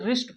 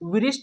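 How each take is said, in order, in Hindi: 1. शुरू में W की कोई आवाज़ सुनाई नहीं देती। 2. शुरू में W की आवाज़ बोली जाती है। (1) "इसे रिस्ट पढ़ेंगे" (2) "इसको विरिष्ट नहीं पढ़ेंगे"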